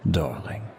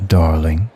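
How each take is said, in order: First: Darling breathed much softer, falling at the end. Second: Darling said louder with a rising lilt. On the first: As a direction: let darling drop to a hush. Flirting with the stranger. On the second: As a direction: push darling up and out. Heated restraint. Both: Acted.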